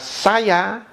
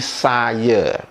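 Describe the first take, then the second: First: The word ends with an open 'a' sound. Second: The word ends with an 'e' sound. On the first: "Kosakata saya" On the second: "diucapkan menjadi"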